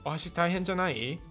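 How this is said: It sounds like a doubtful question. Are you sure it's not too hard? "this one is like questioning"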